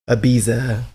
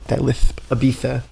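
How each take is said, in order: First: The middle consonant is a plain z sound. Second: The middle consonant is a lisped th sound.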